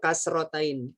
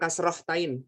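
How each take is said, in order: First: There is no h sound before -tain. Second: An h sound comes before -tain. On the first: The speaker calls it right. "Yang betul kasrotain" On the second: The speaker calls it wrong. "Bukan kasrohtain. Salah"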